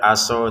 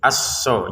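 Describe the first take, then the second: First: The s sound is single and light. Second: The s sound is doubled and pressed. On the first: The speaker calls it wrong. "jangan sekedar aso" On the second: The speaker calls it right. "Tasydidnya jangan disepelekan"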